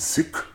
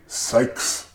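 First: The word does not sound like psych. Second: The word sounds like psych. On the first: The speaker calls it right. "getting them to pronounce the name right. It is Sikh" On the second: The speaker calls it wrong. "They sometimes say Sikhs"

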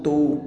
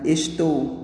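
First: The word is shortened to one syllable. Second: The word is said in full with two syllables.

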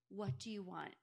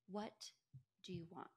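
First: It is asked in an intense, pressing way. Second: It is asked in a calm, mild way.

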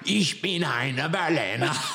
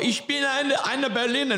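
First: It is said in a growly pirate voice. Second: It is said in a put-on German accent.

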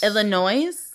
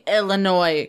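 First: The final S is sounded. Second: The final S is silent. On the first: The speaker calls it wrong. "That sounds fucking awful" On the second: The speaker calls it right. "I'm saying Illinois correctly, right? You do not pronounce the S at the end?"

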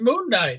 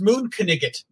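First: Knight is said as one syllable, like 'night'. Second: Knight is said as two syllables, like 'kniggit'. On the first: "I thought it was Moon Knight" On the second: "It's pronounced Moonkniggit"

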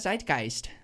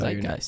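First: The word is said with an exaggerated German accent. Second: The word is said with an American accent. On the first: The speaker calls it right. "lean into it with like, That's better" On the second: The speaker calls it wrong.

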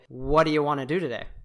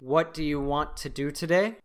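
First: The words are reduced and run together. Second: Each word is pronounced fully and separately. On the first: The speaker calls it right. "We say" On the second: The speaker calls it wrong. "We don't actually say it like that most of the time"

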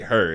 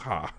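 First: The word ends with a clear R sound. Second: The R is dropped, ending in an open vowel.

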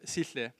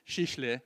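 First: The name is said in its usual pronunciation. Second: The name is bent playfully to sound like 'sheesh'. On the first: It is the person's actual name. "instead of Sihle" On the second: It is a playful nickname for a good preacher. "I'll give you permission to call him Sihle"

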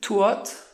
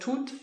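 First: The vowel is a gliding diphthong. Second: The vowel is a single steady vowel. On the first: This is the older, Swiss-like pronunciation. "some of the vowels are a bit how modern Swiss German is" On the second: This is the modern standard pronunciation. "instead of"

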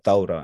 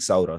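First: The word is said in formal standard Arabic style. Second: The word is said in everyday colloquial Egyptian style. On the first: This is the proper standard form used on television. The speaker calls it right. "they speak very like proper formal Arabic. And they said Thawra" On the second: This is how people say it in everyday speech. The speaker calls it wrong. "everyone was saying Saura"

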